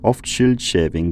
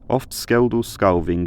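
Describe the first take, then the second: First: Scyld and Scefing begin with a soft sh sound. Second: Scyld and Scefing begin with a hard sk sound. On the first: This is the later stage of the language. "have emerged and become ch, y, and sh" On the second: This is the earlier stage of the language. "It's still k, r, and sk"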